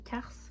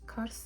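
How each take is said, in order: First: The name is said with a French pronunciation. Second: The name is said with a Turkish pronunciation.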